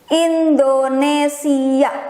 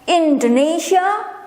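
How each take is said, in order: First: It is said with a native Indonesian pronunciation. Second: It is said with a foreign, English-like pronunciation. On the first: This is how locals say the name. "how Indonesian pronounce their own country" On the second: This is how outsiders say the name. "foreigner will call my country's name as"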